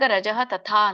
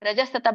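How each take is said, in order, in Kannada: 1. ಎರಡು ಪದಗಳನ್ನು ಬೇರೆ ಬೇರೆಯಾಗಿ, ಉಸಿರು ನಿಲ್ಲಿಸಿ ಹೇಳಲಾಗಿದೆ. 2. ಎರಡು ಪದಗಳು ಕೂಡಿ ಒಂದೇ ಪದದಂತೆ ಹೇಳಲಾಗಿದೆ.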